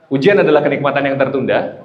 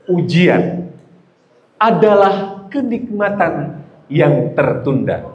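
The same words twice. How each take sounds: First: It is read flatly, with little energy. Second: Each word is read with power and energy. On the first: The speaker calls it wrong. "Ada energinya nggak? Nggak ada" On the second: The speaker calls it right. "kata per katanya dengan power, dengan energi"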